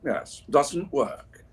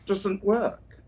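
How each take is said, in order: First: Slow, weighty wizard pronouncement of doesn't work; Gandalf impression. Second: Answer to quiz. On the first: Slow Gandalf voice explaining air conditioning to chat. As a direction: draw it out like a solemn old wizard. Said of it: "as Gandalf would say". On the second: Shown as a demonstration. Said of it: "the air conditioning what?".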